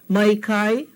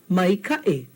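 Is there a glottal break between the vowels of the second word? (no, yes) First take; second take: no; yes. First: The vowels in the second word run together smoothly. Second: A glottal break separates the vowels in the second word. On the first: The speaker calls it wrong. "without the okina, you see what happens? It comes out to mai kai. Doesn't mean anything" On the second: The speaker calls it right. "when we put in the okina, it separates these two vowel sounds so that we have a clear ka'i"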